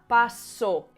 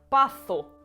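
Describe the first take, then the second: First: The s is a dental s of seseo regions. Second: The s is said as th, ceceo style.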